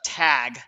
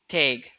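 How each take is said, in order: First: The vowel is said the non-Minnesota way. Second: The vowel is said the Minnesota way. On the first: "We don't say uh, tag, which sounds like a disease" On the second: "We see tag, tag"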